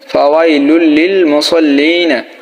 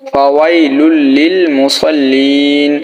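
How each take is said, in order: First: The last word ends with a vowel. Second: The last word ends with a consonant. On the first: The reading continues without stopping. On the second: The reader stops at this word.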